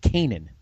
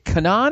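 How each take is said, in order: First: Kanan said KAY-nun; second pronunciation option. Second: Kanan said kuh-NAHN; first pronunciation option. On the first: Unsure host offering the other way to say a name, Kanan as KAY-nun. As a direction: say Kanan as KAY-nun, stressed on the first syllable. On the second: Unsure host trying a name for the comics expert, Kanan as kuh-NAHN. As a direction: say Kanan as kuh-NAHN, stressed on the second syllable. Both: Shown as a demonstration. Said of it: "is it Kanan or is it Kanan".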